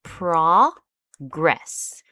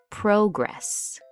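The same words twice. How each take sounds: First: "progress" with a strong, drawn-out first syllable, PRAH-gress; noun stress on first syllable. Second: "progress" as pro-GRESS, second part stressed; verb stress on second syllable. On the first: Teacher showing learners the noun form, "progress" stressed on PRAH. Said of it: "If it is a noun". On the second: Teacher showing learners the verb form, "progress" stressed on GRESS. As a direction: lean on GRESS in "progress", slowly. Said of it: "If we are using the word as a verb". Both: Shown as a demonstration.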